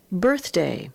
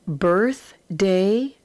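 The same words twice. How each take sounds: First: Said in the usual way. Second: Birthday split into Birth and day, said slowly, rising at the end; syllable by syllable. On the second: Shown as a demonstration. Teacher sounding out a word for young readers, split slow. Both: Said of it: "read across and then put together".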